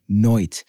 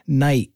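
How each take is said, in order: First: The vowel is a cockney-like 'oy' sound. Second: The vowel is a plain 'eye' sound. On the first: "came out his mouth sounding like noit" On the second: "Words like night"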